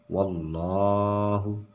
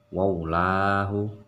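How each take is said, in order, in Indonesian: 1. Suku kata tengah terdengar seperti 'llo' yang berat. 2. Suku kata tengah terdengar seperti 'lla' yang ringan. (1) "yaitu loh" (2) "jadi tidak baca waulahu, salah"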